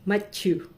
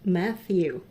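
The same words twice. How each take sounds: First: Matthew said as Matchu, with a ch sound and a falling end; her own Filipino way. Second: Matthew said the English way, th between the teeth; English accent. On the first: Retold or imitated. Calling the new butcher colleague by name, her own Filipino pronunciation. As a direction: Matthew as Mat-chu, not with the English th. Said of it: "ang accent ko sa pagtawag ng pangalan mo". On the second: Shown as a demonstration. Showing the colleague how she says his name now, English pronunciation. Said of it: "English accent".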